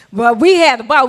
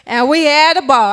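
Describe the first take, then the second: First: "we had a ball" said louder, stress on "we"; louder repeat of "we had a ball", leaning on "we"; emphatic. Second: Said in the usual way. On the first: Shown as a demonstration. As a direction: punch "we" and lift the whole line.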